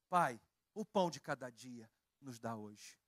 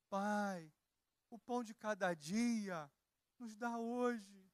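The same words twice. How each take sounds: First: It sounds like a firm, confident statement. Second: It sounds like a pleading, hopeful request.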